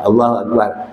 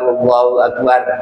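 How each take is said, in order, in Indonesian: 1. Akbar berakhir pada r mati, lalu berhenti. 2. Akbar berakhir dengan vokal setelah r. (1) "kalau nak wakaf" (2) "Kalau kita nak baca wasal"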